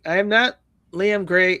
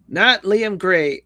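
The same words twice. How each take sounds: First: Firm denial, hit "not"; stress on not. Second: "Not" drawn out slow and loud; slow emphatic denial; stress on not. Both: Shown as a demonstration.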